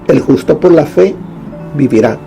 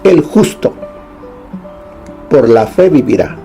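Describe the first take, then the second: First: There is a pause after "fe". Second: There is a pause after "justo".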